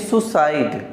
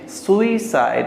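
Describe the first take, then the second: First: It begins with one vowel sound, soo. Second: It begins with two vowel sounds, soo-ee. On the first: The speaker calls it wrong. "सुसाइड बोलेंगे गलत हो जाएगा" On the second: The speaker calls it right. "सुइसाइड होता है ये"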